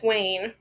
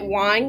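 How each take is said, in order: First: The surname rhymes with 'rain'. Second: The surname rhymes with 'fine'. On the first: "Or is it Wayne?" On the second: "I'm gonna be pronouncing it wine"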